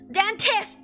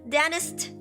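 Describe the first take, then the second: First: The middle t sound is clearly pronounced. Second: The middle t sound is dropped. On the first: "T I S T" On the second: "Where's the T?"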